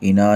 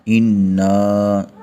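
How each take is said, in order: First: The n sound is short, not doubled. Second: The n sound is doubled and held firmly. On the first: The speaker calls it wrong. "इना नहीं पढ़ा" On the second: The speaker calls it right. "नून के ऊपर शद को खूब ज़हर करेंगे, सख्ती के साथ पढ़ेंगे"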